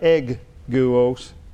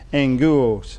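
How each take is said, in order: First: The first syllable is a hard 'egg' sound. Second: The first syllable is a nasal 'ang' sound. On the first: The speaker calls it wrong. "It's spelled E-G-G-U-O-S, like egg-guos" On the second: The speaker calls it right. "you pronounce it as though it's spelled E-N-G"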